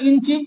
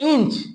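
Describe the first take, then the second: First: The word ends with an added 'i' vowel. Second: The word ends on a consonant sound.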